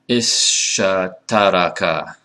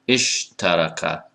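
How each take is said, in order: First: An extra vowel separates the opening consonants. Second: The opening consonants run together without a vowel. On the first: The speaker calls it wrong. "that's too many, too many consonants" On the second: The speaker calls it right. "It's istalama, ishtaraka"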